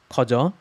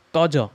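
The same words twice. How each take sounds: First: 가자 with a light, airy first consonant, softened; soft wrong take. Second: 가자 loud, with a hard, tense first consonant; tense double consonant. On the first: Teacher showing what it is not, 가자 with a soft first consonant. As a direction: let the start of 가자 go slack. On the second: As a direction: punch the start of 가자. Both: Shown as a demonstration.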